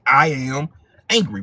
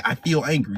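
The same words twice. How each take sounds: First: Louder, weighty I am angry; firm angry statement. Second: Said in the usual way. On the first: Shown as a demonstration. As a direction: own the anger as you say it. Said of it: "You say". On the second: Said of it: "you don't say".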